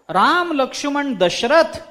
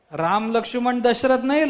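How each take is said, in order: First: Parrot squawk. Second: Said in the usual way. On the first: Acted. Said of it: "असं तो पोपट ओरडतो".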